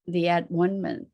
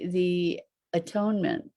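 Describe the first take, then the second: First: "at-one-ment" said as at, one, ment; at-one-ment split in three. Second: Said in the usual way. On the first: Shown as a demonstration. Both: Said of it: "the at-one-ment".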